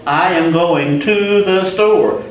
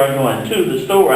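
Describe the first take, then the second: First: Slow, careful model sentence; slow example sentence. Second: Said in the usual way. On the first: Shown as a demonstration. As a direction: spell out the example slowly for students. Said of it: "For example". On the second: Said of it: "La tienda means the store".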